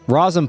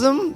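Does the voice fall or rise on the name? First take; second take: fall; rise. First: The name is said flat, as a statement. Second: The name rises like a question.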